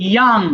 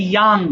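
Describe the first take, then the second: No difference in how they are said.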